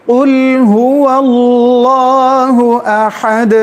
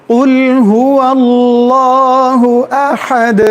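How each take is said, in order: The two takes are said the same way.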